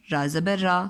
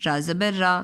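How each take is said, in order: Both takes have the same delivery.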